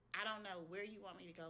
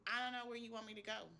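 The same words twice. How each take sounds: First: The same plea, dropping back down and tired; weary repeat. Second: Pleading higher, a touch louder at the end of her rope; emotional plea. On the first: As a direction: repeat it more resigned, the energy gone. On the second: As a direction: cry out to God in frustration, voice lifting. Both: Retold or imitated. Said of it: "I was just emotional".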